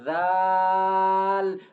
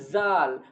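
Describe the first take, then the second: First: The first sound is soft, tongue between teeth. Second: The first sound is a hard buzzing z. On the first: The speaker calls it right. "put the tip of tongue between the teeth and then say zal" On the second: The speaker calls it wrong. "Don't say zal because it will be different"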